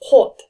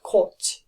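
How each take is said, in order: First: The final consonant is a plain t sound. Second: The final consonant is not a plain t sound. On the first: The speaker calls it right. "the t sound is pronounced as the sound. So kot" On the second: The speaker calls it wrong. "not kot"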